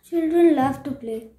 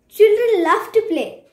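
First: It is said in a sad tone. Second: It is said in an excited tone.

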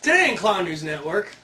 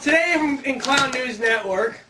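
First: It is said in a professional voice. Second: It is said in a whiny voice.

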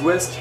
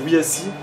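First: The name is said as a single word. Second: The name is spelled out letter by letter. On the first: The speaker calls it wrong. "ça se dit pas West parce que les Français souvent ils disent West" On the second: The speaker calls it right. "mais c'est WSI"

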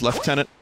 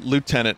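First: The word has its British pronunciation. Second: The word has its American pronunciation. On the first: "I think maybe more British is lieutenant" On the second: "lieutenant is how I grew up hearing it. Like, I think it's more of an American thing"

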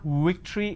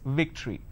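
First: It begins with a rounded-lip w sound. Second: It begins with a lip-biting v sound. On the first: The speaker calls it wrong. "it's not victory" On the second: The speaker calls it right. "It's victory. you need to bite your lower lip"

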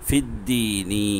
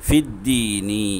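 The two takes are said the same way.

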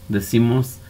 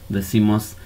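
The two takes are said the same way.

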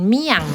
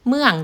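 First: The vowel is the diphthong ia. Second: The vowel is the diphthong uea. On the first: This is the local Isan pronunciation. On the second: This is the standard Thai pronunciation.

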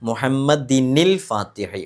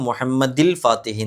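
First: An n sound links the two words. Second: Muhammad links straight into the l sound. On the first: The speaker calls it right. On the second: The speaker calls it wrong.

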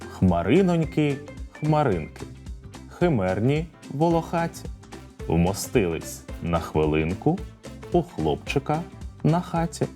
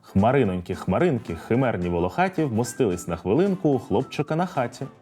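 First: It is spoken slowly. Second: It is spoken quickly. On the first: "Повторюйте за мною спочатку повільно" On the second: "А тепер давайте спробуємо швидко"

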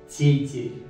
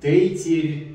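First: The t and r sounds are soft. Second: The t and r sounds are hard. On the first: The speaker calls it right. "Все смягчается" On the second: The speaker calls it wrong. "Его русские часто читают как"

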